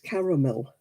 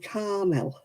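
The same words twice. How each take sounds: First: The word is said with three syllables. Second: The word is said with two syllables. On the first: The speaker calls it right. "It's caramel" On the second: The speaker calls it wrong. "You miss whole chunks out of words sometimes in America"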